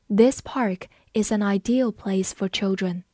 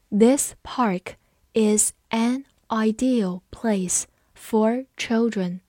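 First: Said in the usual way. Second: Slow, with a pause between word groups; slow read-along. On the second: Shown as a demonstration. Teacher leading students through the park sentence, slowly. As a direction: read slowly so learners can follow. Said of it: "我们慢慢来读".

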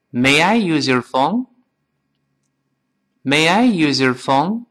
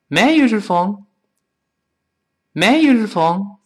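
First: Slowly and evenly, rising at the end; careful, spaced question for repeating; slow model reading. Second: Quick and higher, "use your" run together as yu-zher; faster, linked. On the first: Teacher leads students through the question, slow model reading. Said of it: "我们先跟老师慢慢再读一遍". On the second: Teacher speeds up the phone question, faster and linked. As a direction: breeze through it in one go. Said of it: "再快点". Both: Shown as a demonstration.

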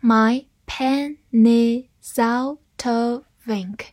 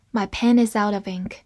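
First: "My pen is out of ink" very slowly, final consonants carried onto next word; slow syllables, linking pen-is, is-out, out-of, of-ink; slow linking demo. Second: "My pen is out of ink" run together at natural speed; connected speech, "pen is out of ink" as one chain; fast linked reading. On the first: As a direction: stretch it out as "pe-nni-sou-to-vink". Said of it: "词与词之间都有一处连读". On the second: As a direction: link every word from "pen" onward. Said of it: "读快的时候". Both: Shown as a demonstration.

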